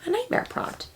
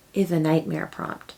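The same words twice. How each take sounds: First: Much higher and much softer, rising on nightmare; spooky echo. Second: Said in the usual way. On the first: Shown as a demonstration. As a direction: echo it back in an eerie falsetto.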